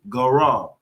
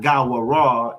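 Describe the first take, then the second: First: The word is said without the extra sound. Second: The word is said with the extra sound. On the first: The speaker calls it right. "it's going to be Garal" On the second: The speaker calls it wrong. "It's not Gawaral"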